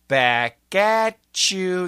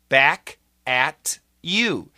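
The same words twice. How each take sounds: First: Said fast, with T and Y joined as CH. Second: Said carefully, with T and Y kept separate.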